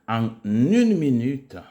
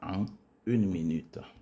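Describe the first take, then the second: First: The n sound links into the next word. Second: The words are said separately without a linking sound. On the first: The speaker calls it right. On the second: The speaker calls it wrong.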